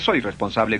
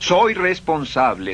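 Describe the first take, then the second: First: It is said flatly, without feeling. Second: It is said with strong feeling.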